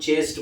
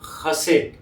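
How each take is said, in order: First: It begins with a 'ch' sound, like chest. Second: It begins with a throaty 'kh' sound. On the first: The speaker calls it wrong. "अभी आप इसको चेस्ट बोले" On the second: The speaker calls it right. "पर इसका प्रोनाउंसिएशन होता है खसेट"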